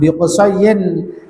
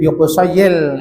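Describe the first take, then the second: First: The final n is pronounced clearly. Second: The final n merges into a doubled l. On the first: The speaker calls it wrong. "langsung bi Qusayyin itu kan berarti salah bacanya" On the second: The speaker calls it right. "mau dikasih tasdid pada lam boleh"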